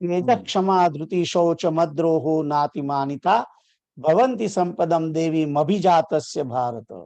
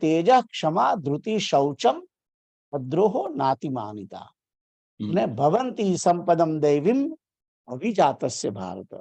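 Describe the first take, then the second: First: The verse runs on without a break. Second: There is a break after the eighth syllable. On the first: "એ રીતે પણ બોલી શકાય" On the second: "સંધિ છૂટી પાડીને જયારે બોલીએ છીએ આઠમા અક્ષરે"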